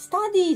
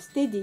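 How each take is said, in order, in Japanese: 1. 最初の母音は「a」の音です。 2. 最初の母音は「e」の音です。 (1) "スタディーじゃなくて"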